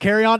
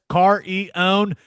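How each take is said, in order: First: The name sounds like the phrase 'carry on'. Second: The name is said in three parts: car-ee-own. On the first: This is how most people say it. "everyone says carry on" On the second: This follows the official pronunciation guide. "it says car e own in the pronunciation guide"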